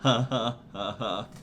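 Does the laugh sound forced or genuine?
genuine. The laugh sounds closer to genuine.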